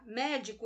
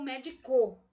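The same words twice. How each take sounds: First: The stress is on the first syllable. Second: The stress is on the last syllable. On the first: The speaker calls it right. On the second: The speaker calls it wrong.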